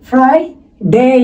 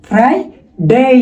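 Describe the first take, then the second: The two takes are said the same way.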